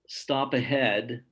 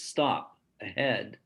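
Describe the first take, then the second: First: Both words run together in one phrase. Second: There is a break after the first word. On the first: There is a stop sign ahead. "is said in one phrase" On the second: Stop, and then go ahead. "It has a intonational break between stop and uh"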